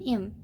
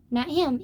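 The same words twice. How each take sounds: First: "Im" with the h dropped, like 'im. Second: Said in the usual way. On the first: Shown as a demonstration. Reading the friend's southern line, "Im" without h. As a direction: correct herself to a southern "Im", no h.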